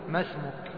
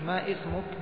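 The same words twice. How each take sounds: First: The two words link without a glottal stop. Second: A glottal stop separates the two words. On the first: The speaker calls it right. "وإنما تقول ما اسمك" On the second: The speaker calls it wrong. "لا مش ما اسمك لأنها ليست همزة قطع"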